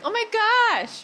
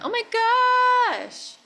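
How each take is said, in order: First: The phrase is said quickly at normal length. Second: The phrase is stretched out and drawn long. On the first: "That's kind of an excited in your head voice situation" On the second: "so now can you lengthen that?"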